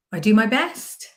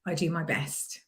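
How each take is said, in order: First: "best" rising high like a question; questioning inflection. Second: "best" falling, quietly sure; downward inflection. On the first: Coach showing self-doubt, "best" rising as a question. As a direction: lift "best" up as if unsure. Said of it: "that's like questioning yourself". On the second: Coach showing self-belief, "best" with falling tone. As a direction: let "best" drop, softer, as a statement. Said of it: "with a downward inflection". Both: Shown as a demonstration.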